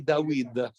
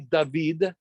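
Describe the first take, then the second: First: It is said in a Yemenite Hebrew accent. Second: It is said in the usual Hebrew accent. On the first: "They say Dawid" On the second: "we say David"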